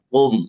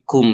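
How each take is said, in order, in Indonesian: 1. Bunyi k diucapkan berat dan tebal. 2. Bunyi k diucapkan biasa dan ringan. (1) "jangan kum" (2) "tapi kum biasa"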